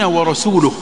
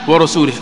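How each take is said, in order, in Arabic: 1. الحرف الأخير يحمل الضمة. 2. الحرف الأخير يحمل الكسرة. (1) "هذه بالضم" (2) "لكنه لو خفضها"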